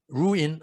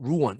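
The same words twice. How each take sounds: First: "ruin" spelled out as "roo-in"; mispronounced ruin. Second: "ruin" with a reduced ending, "ROO-un"; native-style ruin. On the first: Teacher showing students what to avoid, "ruin" as "roo-in". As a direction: say "ruin" with a plain "in" ending. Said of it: "ruin 안 하지 않고 ruin 이렇게 발음합니다". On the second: Teacher modelling native pronunciation for students, "ruin" as "ROO-un". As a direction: say "ruin" like "roo-won", not "roo-in". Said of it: "ruin 이렇게 발음합니다". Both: Shown as a demonstration.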